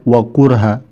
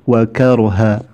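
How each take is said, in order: First: The vowel after k is u. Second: The vowel after k is a. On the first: The speaker calls it wrong. "bukan wakurha" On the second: The speaker calls it right. "tapi wa karha"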